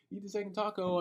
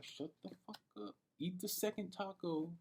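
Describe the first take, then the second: First: Said in the usual way. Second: Much softer, fast, talking to himself; inner voice. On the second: Retold or imitated. Telling himself to calm down and eat, hushed inner voice. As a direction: hush yourself like the voice in your head. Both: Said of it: "in my brain".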